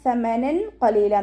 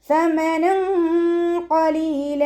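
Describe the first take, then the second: First: The n is pronounced clearly and distinctly. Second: The n is hidden with a nasal hum. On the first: The speaker calls it wrong. "എന്ന് ഓതിപ്പോവരുത്, ഇദ്ഹാർ ചെയ്യരുത്" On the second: The speaker calls it right. "തെൻവീനിലുള്ള നൂനിനെ മറച്ചു വെച്ചിട്ട് മണിച്ചോതി കൊടുക്കുക"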